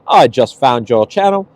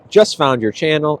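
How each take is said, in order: First: It is said in a British accent. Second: It is said in her normal accent.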